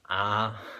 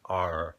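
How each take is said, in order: First: The letter is said without a strong R sound. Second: The letter is said with a strong R sound. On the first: "in Australia, it's very much an R" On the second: "in the United States, it's R"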